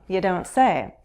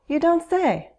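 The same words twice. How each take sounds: First: It sounds sarcastic and unimpressed. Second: It sounds genuinely interested and surprised. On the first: The news is not surprising at all. "We also use "you don't say" sarcastically" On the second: The news really is surprising. "You find this interesting and surprising"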